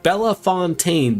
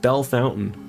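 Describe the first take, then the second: First: The name is said in a French-style way. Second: The name is said like English 'bell fountain'. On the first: "which should sound like Bella Fontaine" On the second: "but they pronounce it Bell Fountain"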